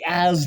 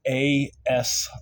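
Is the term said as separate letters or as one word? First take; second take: one word; letters. First: It is said as one short word. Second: It is said as two separate letters. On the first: The speaker calls it wrong. "not the as line, as like you would pronounce it" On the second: The speaker calls it right. "the A S line"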